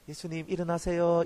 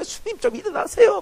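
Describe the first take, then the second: First: It is said plainly and calmly. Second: It is said urgently and anxiously.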